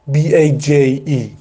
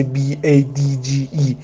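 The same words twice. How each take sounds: First: Slow, drawn-out بی ای جی ای, leaving out the دی; بی ای جی ای spelled slowly, letter by letter, missing the دی; wrong spelling. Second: بی ای دی جی ای as the right spelling, spoken letter by letter; correct spelling. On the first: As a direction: spell بی ای جی ای slowly as the mistake to avoid. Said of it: "ننویسی مثلاً". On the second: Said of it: "باید بنویسی". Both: Shown as a demonstration.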